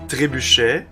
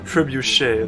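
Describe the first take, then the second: First: It is said with a native French accent. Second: It is said with an English-tinged French accent. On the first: This is the real word. "the real word would be trebuchet" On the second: This is how an English speaker would say it. "like an English guy would say it in French"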